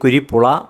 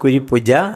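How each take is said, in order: First: The last syllable starts with an l sound. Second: The last syllable starts with a j sound. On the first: "പറയാൻ അറിയാൻ വയ്യ" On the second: "പറയാൻ അറിയാൻ വയ്യ"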